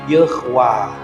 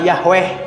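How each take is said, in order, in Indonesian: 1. Suku kata pertama memakai vokal e. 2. Suku kata pertama memakai vokal a. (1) "ini tanda baca E, ini tanda baca A panjang. Jadi bacanya Yehwa" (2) "Orang Kristen nyebatna Yahweh. Padahal tidak ada bacaan Yahweh"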